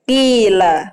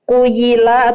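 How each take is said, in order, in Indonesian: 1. Vokal pertamanya bunyi 'i' panjang. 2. Vokal pertamanya 'u', diikuti bunyi 'y'. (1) "Kita bilang aja kila" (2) "kan gak enak nih"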